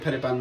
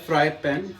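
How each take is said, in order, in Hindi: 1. इसे गढ़वाली स्थानीय उच्चारण में बोला जाता है। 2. इसे अंग्रेज़ी जैसे मानक उच्चारण में बोला जाता है। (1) "गढ़वाली टोन में फरे पान बन जाता है" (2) "वैसे ही होता है फ्राई पैन"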